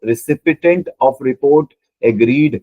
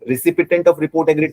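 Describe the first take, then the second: First: Drawn out word by word, like dictating a key phrase; slow emphatic reading. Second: Phrase rises as a puzzled question, stress on "of". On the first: Teacher reading the answer option aloud to the class, very slow. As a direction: spell the option out slowly for students. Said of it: "Recipient of report agreed का मतलब क्या है?". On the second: Teacher quizzing students on what the option means, rising. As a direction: ask it back to the class, searching. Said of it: "का मतलब क्या है?". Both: Shown as a demonstration.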